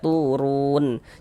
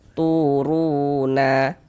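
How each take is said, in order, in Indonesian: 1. Berakhir dengan n mati, tanpa harakat. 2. Berakhir dengan vokal a pendek tambahan. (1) "kita baca turun" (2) "Jangan dibaca turuna"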